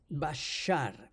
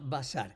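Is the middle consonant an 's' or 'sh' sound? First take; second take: sh; s. First: The middle consonant is an 'sh' sound. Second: The middle consonant is a hissing 's' sound. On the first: "se pronunciaría bashar con, con la, la sh" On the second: "así que se pronuncia basar"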